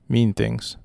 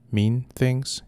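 First: Said in the usual way. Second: "Mean things?" lifted in pitch on "things" as a question; questioning rise. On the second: Acted. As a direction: ask "Mean things?" with an upward tune at the end.

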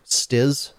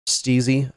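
First: "Stiz." as one syllable, short i; unsure pronunciation. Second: "Steezy." in two syllables, long ee; alternative pronunciation. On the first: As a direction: try "Stiz." with a questioning rise. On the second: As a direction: try "Steezy." with a drawn-out ee. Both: Shown as a demonstration. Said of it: "whose name I always mispronounce".

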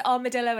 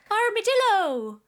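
First: Said in the usual way. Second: Higher-pitched comic exclamation; funny voice. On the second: Shown as a demonstration. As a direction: call it out high in a silly voice. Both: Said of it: "says armadillo in a funny voice".

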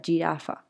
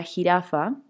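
First: "jirafa" dicha como en inglés, con la j suave de giraffe; jirafa con acento gringo. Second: Said in the usual way. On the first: Shown as a demonstration. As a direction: pronuncia "jirafa" a la americana, más grave y lenta. ("jirafa" imitando a la niña con acento gringo) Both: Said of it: "entonces yo decía jirafa".

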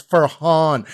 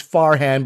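First: FARHAN said "fur-HAHN"; correct pronunciation. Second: FARHAN said "FAR-han"; mistaken pronunciation. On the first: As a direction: land on a long open "hahn" in Farhan. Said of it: "pronouncing his name wrong". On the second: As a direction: Farhan with a flat American A in "han". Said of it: "he says it's Farhan". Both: Retold or imitated.

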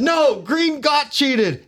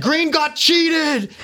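First: Put-on drunk insist. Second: Put-on high, very slow, slurred drunken call; slow high drunk voice to the king; drunk plea. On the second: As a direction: drag each word out like you've had too much. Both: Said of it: "I'm smashed".

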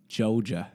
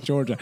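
First: "Georgia" as locals drawl it, R-less; local Mableton pronunciation. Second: Said in the usual way. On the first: Shown as a demonstration. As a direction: say Georgia the Mableton way, like "Joe-juh". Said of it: "that's how they say it in Mableton". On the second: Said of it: "And it's not Georgia".

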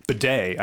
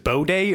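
First: "bidet" said buh-DAY, short unstressed first vowel. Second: "bidet" said BOH-day, long O first. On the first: Offering cohost the version heard from people, "bidet" as buh-day. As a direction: say "bidet" with a quick "buh" opening. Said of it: "I've heard people say bidet". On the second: Asking cohost about his word, "bidet" as boh-day. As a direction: say "bidet" with a round "boh" opening. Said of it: "is it bidet or". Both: Shown as a demonstration.

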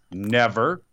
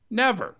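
First: Said in the usual way. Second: NEVER pitched high, falling; "Never" as a high, emphatic verdict; emphatic repeat. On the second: Real, not acted. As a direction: repeat "Never" much higher, with finality.

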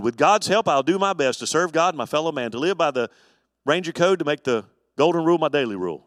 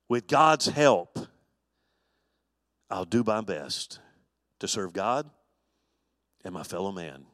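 First: A brisk, loud recitation of the Ranger code; quick, louder pledge from memory; recited pledge. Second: Slow reverent pledge. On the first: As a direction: rattle it off like a boy scout oath. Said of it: "or something like that". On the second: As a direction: say the oath slowly, as a prayer. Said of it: "I hope that's about right". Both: Shown as a demonstration.

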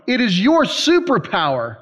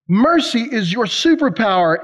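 First: "your" lifted and leaned on, then falling on superpower; stress on your. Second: "Mercy" hit first and strongest, falling after; stress on mercy. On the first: Preacher telling the crowd their gift, stress on "your". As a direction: land the weight on "your". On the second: Preacher naming mercy as their power, stress on "Mercy". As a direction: open hard on "Mercy". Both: Shown as a demonstration.

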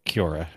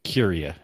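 First: Kiora with an OR in the middle, "kyor-uh"; mispronounced Kiora. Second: Curia as "KYUR-ee-uh"; corrected pronunciation of Curia. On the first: Real, not acted. Player fumbling the name of a game place, mispronounced Kiora. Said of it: "how come I can never say it right". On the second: Shown as a demonstration. Player repeating the name after co-host, corrected Curia. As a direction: copy Curia back carefully, with KYUR and ee-uh. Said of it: "Is that how you say it?".

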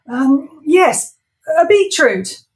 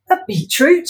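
First: High, loud blurted answer; flustered Ivor. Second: High questioning rise on beetroot; incredulous Wendy. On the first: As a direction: blurt the first thing. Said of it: "said the first thing that popped into his head". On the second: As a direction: repeat it in disbelief. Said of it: "she repeated". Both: Acted.

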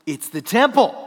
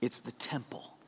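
First: Louder full-voiced proclamation; ringing emphatic answer; loud declaration. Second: Breathy hushed whisper, much softer; hushed whisper of the answer. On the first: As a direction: announce it boldly to the room. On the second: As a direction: whisper it like a secret. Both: Shown as a demonstration. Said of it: "What is that?".

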